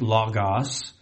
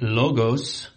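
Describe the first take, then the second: First: It is pronounced the Greek way. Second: It is pronounced the American way. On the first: "That's how it's pronounced in the Greek" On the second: "The Americanized version of that would be logos"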